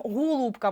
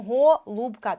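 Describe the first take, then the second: First: ГОЛУБКА said as «hulubka». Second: ГОЛУБКА with a full, clear first О; чітке О. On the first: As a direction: turn the first О of ГОЛУБКА into У. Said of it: "може бути наближене до У". (ГОЛУБКА з У замість першого О) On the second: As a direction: sound out ГО-ЛУБКА with a true О. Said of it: "перевіряємо наголосом". (ГОЛУБКА з виразним першим О) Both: Shown as a demonstration.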